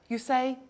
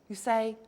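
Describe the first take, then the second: No difference in how they are said.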